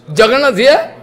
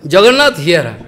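First: "Jagannath here?" lifting to a rise on "here"; rising question tune on "here". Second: "Jagannath here." falling to a low close; falling statement tune on "here"; answering. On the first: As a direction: ask with "here" going up. Asks, then answers himself. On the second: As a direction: state it, letting "here" drop. Answers his own question. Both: Retold or imitated.

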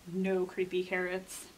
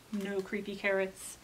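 The two takes are said the same way.

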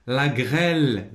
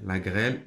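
First: Slow, stretched classroom read-out; drawn-out dictation reading. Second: Said in the usual way. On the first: Shown as a demonstration. Teacher reads the exercise word to pupils, drawn out.

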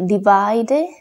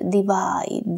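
First: Divide said with a spoken final e, di-VAI-de; wrong pronunciation. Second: Divide said di-VAID, silent final e; correct pronunciation. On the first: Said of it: "la E al final no tiene sonido". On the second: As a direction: divide ending on the D. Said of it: "vamos a decir divide". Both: Shown as a demonstration.

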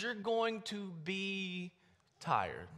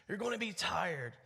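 First: Sag into the word like an exhausted soldier; worn out. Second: Said in the usual way. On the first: Pretend. Preacher acting out weary marchers.

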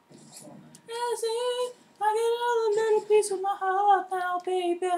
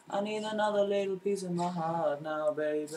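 First: Sung, belt the tune high like a diva; falsetto singing. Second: Mumble-sing it softly to yourself. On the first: Gamer sings along to himself mid-match, high falsetto. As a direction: sing it way up high in a thin falsetto. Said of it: "Sing it". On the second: Sings line again in own voice. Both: Pretend.

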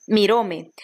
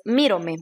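First: "miróme" said with the stress on ró; wrong stress on miróme. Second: "mírome" said with the stress on mí; right stress on mírome. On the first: Teacher reads the wrong form, stress on ró in "miróme". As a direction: read "miróme" leaning on the second syllable, ró. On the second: Teacher gives the correct form, stress on mí in "mírome". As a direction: read "mírome" leaning on the first syllable, mí. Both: Shown as a demonstration. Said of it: "pero es mírome".

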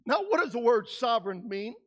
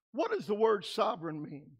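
First: Said in the usual way. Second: Softer and lower, ask it again; hushed repeat. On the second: Real, not acted. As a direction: pull them in with a quiet question.

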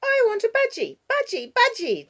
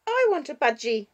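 First: Put-on very high, loud child's yell. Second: Put-on insistent child, high and loud; dangerous note. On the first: Six-year-old yelling at grandparents for a budgie, tantrum yell. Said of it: "Jania yells". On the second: Six-year-old demanding a budgie, dangerous note in her voice. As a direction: demand it with a warning edge. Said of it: "with a dangerous note in her voice". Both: A narrator's reading.

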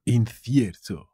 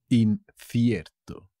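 First: Said in the usual way. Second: "Incierto" slow, "In" set apart; teacher's slow, split-up "Incierto"; slow demonstration. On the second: Shown as a demonstration. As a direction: break "Incierto" after the first syllable, slowly. New word shown slowly to learners.

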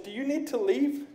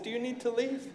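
First: Soft, polite, quiet question; soft polite question, nearly hushed; calm quiet question. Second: Soft, hushed polite question; quiet demo of a polite question. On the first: Retold or imitated. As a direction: ask it gently and quietly. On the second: Shown as a demonstration. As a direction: ask it quietly, almost hushed. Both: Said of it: "I said about like that".

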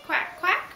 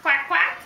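First: Mild duck quack. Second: Put-on loud, bouncy quacking for the toddler; loud duck quack. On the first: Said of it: "What's the duck say?". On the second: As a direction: belt out the duck's quack. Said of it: "What's a duck say, Jack?". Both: Shown as a demonstration.

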